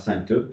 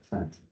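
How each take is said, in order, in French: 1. Le mot se prononce en deux syllabes. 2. Le mot se prononce en une syllabe. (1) "Et pas sainte en deux syllabes" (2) "Il y a finalement une seule syllabe"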